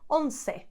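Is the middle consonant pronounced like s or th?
s. The middle consonant is an s sound. This is how it is said in South America and southern Spain. "they would say once"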